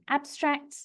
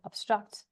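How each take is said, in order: First: The first vowel is a wide open 'a'. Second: The first vowel sounds more like 'o'. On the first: This is the English pronunciation. "I'm making quite a wide shape with my mouth" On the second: This is the Dutch pronunciation. "the Dutch is more an R sound"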